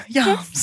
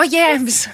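First: "Yams" with the vowel drawn back to "ah"; South African-style YAMS. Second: Said in the usual way. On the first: Shown as a demonstration. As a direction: say "Yams" with a long open "ah", like "yahms". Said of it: "putting on the accent for it". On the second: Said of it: "Sorry, I said yams".

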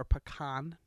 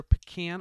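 First: "Pecan" said the fancy way, pih-KAHN; high-class pecan pronunciation. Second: "Pecan" said the everyday way, pih-KAN; everyday pecan pronunciation. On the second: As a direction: say "Pecan" with a short flat A, as in can. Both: Shown as a demonstration. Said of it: "depending on how high class you are".

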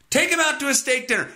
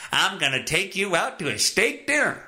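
First: Said in the usual way. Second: Voicing the son. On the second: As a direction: lightly play the good son. Voicing the son's line.

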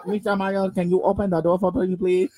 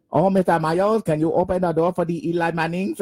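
First: Put-on a light Korean accent on Mister Mayo; imitating Korean accent. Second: Mangled mock Korean accent on Mayo; butchered Korean accent. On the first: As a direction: retell the teacher in a hint of Korean accent. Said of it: "he's has a heavy Korean accent". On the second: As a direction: ham up a botched Korean accent. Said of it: "just butchered".

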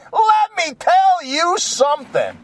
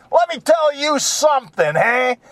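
First: Higher, slower, shouted repeat; brash comic Jesus shouting the repeat; Andrew Dice Clay Jesus. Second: Higher, brash, crying-out opener; brash comic Jesus kicking off; Andrew Dice Clay Jesus. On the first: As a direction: hammer it again harder. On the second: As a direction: start the tough-guy routine. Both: Retold or imitated. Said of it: "like Andrew Dice Clay".

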